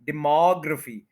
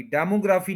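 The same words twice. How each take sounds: First: demography as di-MOG-ruh-fi with MOG stressed; the right reading of demography. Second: demography with full vowels, de-mo-gra-fi evenly; the wrong even reading of demography. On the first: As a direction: correct demography, short schwa in ruh. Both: Shown as a demonstration. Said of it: "demography नहीं कहना".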